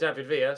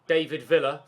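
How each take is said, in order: First: The name is said the Spanish way. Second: The name is said the English way. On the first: The speaker calls it right. "for David Villa" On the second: The speaker calls it wrong. "you wouldn't say David Villa"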